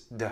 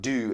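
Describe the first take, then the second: First: The vowel is reduced to a weak schwa. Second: The vowel is a full clear oo sound. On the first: The speaker calls it right. "it's d" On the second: The speaker calls it wrong. "So it's not do"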